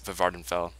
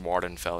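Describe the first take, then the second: First: The name begins with a V sound. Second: The name begins with a W sound. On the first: "I say it with like two V's" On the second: "It's probably just Wardenfell or something like that"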